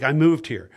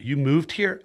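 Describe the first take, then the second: First: Falling statement with weight on "moved"; "moved" stressed, "here" falling; matter-of-fact answer. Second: Rising, incredulous-style question; "here" rises as a question. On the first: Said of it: "I'm like". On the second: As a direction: ask "You moved here" with the pitch lifting on "here". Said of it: "He's like". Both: Retold or imitated.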